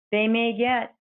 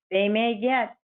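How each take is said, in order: Both takes have the same delivery.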